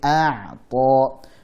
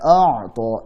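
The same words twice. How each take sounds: First: The word is pronounced thin and light. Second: The word is pronounced thick and heavy. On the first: The speaker calls it right. "Dan tipis ya" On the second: The speaker calls it wrong. "Jangan a'ta"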